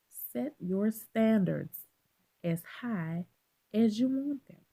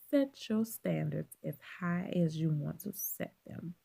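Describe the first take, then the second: First: It is said louder, with more force. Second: It is said at normal volume.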